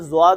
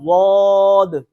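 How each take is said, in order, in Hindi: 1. शब्द की शुरुआत z ध्वनि से होती है। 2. जीभ का किनारा ऊपर की दाढ़ों को दबाता है। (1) "ज्वाद नहीं पढ़ना" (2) "बल्कि पढ़ना है जुबान को उधर लगाकर"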